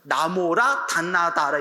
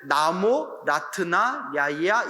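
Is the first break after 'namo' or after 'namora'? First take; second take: after namora; after namo. First: The phrase breaks only after 'namora'. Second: The phrase breaks right after 'namo'. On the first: This is how Koreans usually recite it. "우리는 어떻게 발음해요? ... 이러잖아요. 음절이 틀려요" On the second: This is the original Indian reading. "원래 나모, 라트나, 야이야 이렇게 나가야 되는데"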